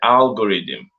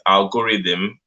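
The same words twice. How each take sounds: First: The o sound is faint, almost silent. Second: The o sound is said fully and clearly. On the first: The speaker calls it right. "The O is kind of silent, but you can hear it a little bit" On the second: The speaker calls it wrong. "A lot of people are making mistakes"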